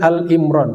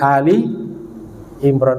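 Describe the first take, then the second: First: The first part is said as short 'Al'. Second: The first part is said as 'Ali' with i. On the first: The speaker calls it wrong. "salah baca Al-Imran, seperti disebut Al-Baqarah" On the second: The speaker calls it right. "tapi Ali Imran, artinya keluarga Imran"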